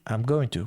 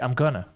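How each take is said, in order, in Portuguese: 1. I am é contraído; going to é dito por completo. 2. Going to é reduzido a gonna. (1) "quando você abrevia"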